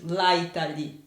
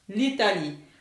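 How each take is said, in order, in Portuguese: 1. A vogal de 'la' é mantida antes de 'Italie'. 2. A vogal de 'la' é eliminada antes de 'Italie'. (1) "Não se fala de jeito nenhum em francês desse jeito" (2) "Tira esse A, põe o L com apóstolo"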